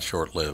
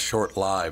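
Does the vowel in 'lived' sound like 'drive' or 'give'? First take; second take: give; drive. First: The vowel in 'lived' is short, as in 'give'. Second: The vowel in 'lived' is long, as in 'life'. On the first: The speaker calls it wrong. "not Short Lived" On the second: The speaker calls it right. "It's supposed to be pronounced Short Live"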